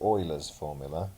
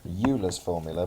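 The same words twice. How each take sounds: First: The name is pronounced the German way. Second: The name is pronounced the English way. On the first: The speaker calls it right. "it's actually German, and so it's pronounced" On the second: The speaker calls it wrong. "You might be tempted to pronounce this as"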